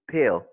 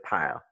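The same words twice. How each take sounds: First: "pale" said as "pill", short lax vowel. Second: "pile" with a long EYE vowel; wrong long I. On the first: Teacher modelling the first syllable of pilgrim, short I. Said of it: "le son court". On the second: Teacher showing the French learners' mistake, wrong long I. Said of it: "instead of pile". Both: Shown as a demonstration.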